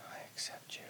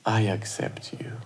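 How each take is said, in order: First: Faint whisper echoing the phrase; whispered repeat. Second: Soft whisper, words for the heart; whispered affirmation. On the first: Co-host softly echoing the affirmation, faint whisper. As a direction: repeat it back in a barely heard whisper. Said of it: "you can just repeat". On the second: Host whispering affirmations for listeners to repeat, soft whisper. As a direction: whisper it gently to your own heart. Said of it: "repeat or just listen and receive". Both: Shown as a demonstration.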